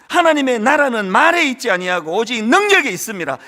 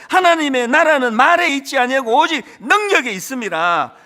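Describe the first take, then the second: No difference in how they are said.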